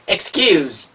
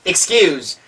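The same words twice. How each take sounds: Both takes have the same delivery.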